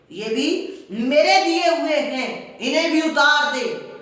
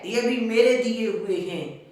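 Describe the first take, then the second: First: High, loud, harsher repeat on میرے; escalated angry shout. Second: Said in the usual way. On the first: Retold or imitated. Uncle demanding the clothes back, escalated furious shout. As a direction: hammer میرے the second time, louder and higher.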